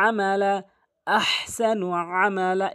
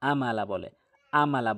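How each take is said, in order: First: "আমালা" starting with a squeezed throat ain; correct ain. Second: "আমালা" with hamza instead of ain; low, plain "আমালা" with a light glottal onset; common mispronunciation. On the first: Teacher models how it must be said, "আমালা" with ain. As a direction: chant "আমালা" higher, with ain from mid-throat. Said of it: "এভাবে বলতে হবে". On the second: Teacher shows the mistake, "আমালা" with hamza. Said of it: "আইনের জায়গায় হামজা এনে উচ্চারণ করে". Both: Shown as a demonstration.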